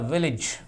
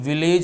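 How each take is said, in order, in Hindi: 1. आखिरी अक्षर में छोटा 'i' स्वर है। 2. आखिरी अक्षर में 'e' स्वर है। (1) "इज की मात्रा लगती है" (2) "ये विलेज नहीं होता मेरे भाई"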